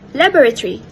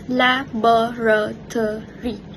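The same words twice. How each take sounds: First: One unstressed vowel is dropped. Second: Every syllable is pronounced in full. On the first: "reduced to laboratory by dropping one of the vowels" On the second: "The full careful pronunciation"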